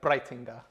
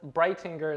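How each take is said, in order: First: The name is said with a German pronunciation. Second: The name is said with a local English pronunciation. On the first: This is how family in Germany say it. "all my family in Germany is like" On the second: This is how people locally say it. "is how people here say it"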